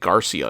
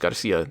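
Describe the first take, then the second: First: The stress falls on a different, misplaced syllable. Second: The stress falls on the usual Spanish syllable. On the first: The speaker calls it wrong. "putting the accents on like the wrong places" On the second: The speaker calls it right. "the guy's name is"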